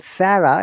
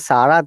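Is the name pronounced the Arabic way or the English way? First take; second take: English; Arabic. First: The name is pronounced the English way. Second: The name is pronounced the Arabic way. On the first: It is the English form of the name. "Sarah is British English or American English" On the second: It is the Arabic form of the name. "if you say Sarah, that is Arabic name"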